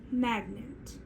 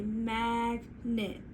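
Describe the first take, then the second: First: Said in the usual way. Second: "magnet" drawn out as MAG... NET; slow, segmented "magnet"; stretched into syllables. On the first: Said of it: "bring it back together". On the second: Shown as a demonstration. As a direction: stretch "magnet" into two separate parts. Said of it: "We're gonna stretch it".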